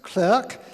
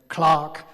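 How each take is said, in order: First: The vowel sounds like the one in 'work'. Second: The vowel sounds like the one in 'park'. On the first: "would be pronounced by Americans" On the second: "Clark is the British, well in his case it was Scottish uh, pronunciation"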